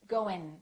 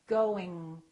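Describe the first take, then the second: First: The G is dropped, ending in a front N. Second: The back G is held without any release. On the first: The speaker calls it wrong. "they just produce the N ... in the front of their mouth" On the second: The speaker calls it right. "let the G just kind of stay there"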